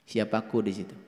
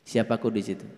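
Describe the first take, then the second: The two takes are said the same way.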